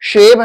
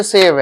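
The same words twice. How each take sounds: First: शेव with a clear SH; SH sound. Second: सेव with a plain S; S sound. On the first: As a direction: begin शेव on a hushing SH. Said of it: "तलाबे शो pronounce करेंगे". (शेव को साफ़ 'श' से बोलें) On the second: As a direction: begin सेव on S, not SH. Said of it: "ये सेव है". (सेव को साफ़ 'स' से बोलें) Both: Shown as a demonstration.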